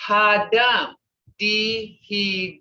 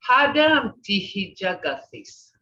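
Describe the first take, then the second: First: Broken into sounds. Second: Said in the usual way. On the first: Shown as a demonstration. Teacher showing how sounds are broken, "Hadam dihijagathis" syllable by syllable. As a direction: stretch and separate each sound in "Hadam dihijagathis". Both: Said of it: "See how they're broken the sounds?".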